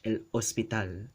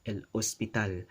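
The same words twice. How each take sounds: First: A glottal stop separates the two words. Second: A glottal stop separates the two words.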